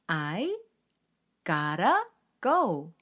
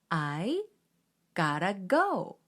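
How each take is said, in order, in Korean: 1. 'got to'는 부드럽게 이어져 'gotta'로 발음합니다. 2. 'got to'는 부드럽게 이어져 'gotta'로 발음합니다.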